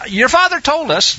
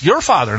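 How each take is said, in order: First: Said in the usual way. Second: "your" hit hard, "father" falling after it; stress on your. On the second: Shown as a demonstration. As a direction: lean on the word "your". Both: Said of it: "notice, not our father".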